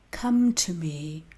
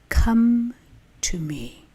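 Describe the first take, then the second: First: It is read at a normal pace. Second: It is read slowly and calmly.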